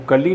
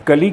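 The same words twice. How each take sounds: First: कली with the l held double, "kal-lee"; doubled L. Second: कली with one short l, "ka-lee"; no held L in कली; single L. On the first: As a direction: lengthen the L in कली. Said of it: "ना कहकर". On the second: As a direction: say कली like the Hindi word for bud. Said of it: "कली कहना पड़ता है". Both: Shown as a demonstration.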